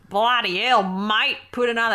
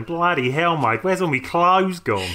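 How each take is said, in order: First: Hammed-up Australian twang, pitched up; exaggerated Australian accent. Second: Put-on rough stab at an Australian accent, drawn out and slightly raised; bad Australian accent. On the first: Mimicking co-host's bad impression, exaggerated Australian accent. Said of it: "a really exaggerated Australian accent". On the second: Man waking up naked in heaven, bad Australian accent. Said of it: "I do apologise for that bad accent".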